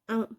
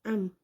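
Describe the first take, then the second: First: The final m is touched briefly and released. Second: The final m is held firmly with closed lips. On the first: The speaker calls it wrong. "Jangan am" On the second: The speaker calls it right. "jadi berhenti gini"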